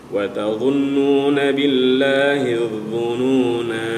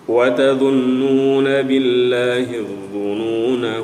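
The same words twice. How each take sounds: First: The final vowel of dhununa is held long. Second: The final vowel of dhununa is kept short. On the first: The reading stops at this word. "kita baca panjang" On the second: The reading continues into the next words. "tidak kita baca panjang, kita baca pendek saja"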